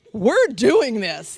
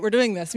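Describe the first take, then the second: First: Slow, emphatic resolve; inner self-talk. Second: Said in the usual way. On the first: Retold or imitated. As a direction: spell it out slowly to yourself. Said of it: "Me and my soul". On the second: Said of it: "so I'm like".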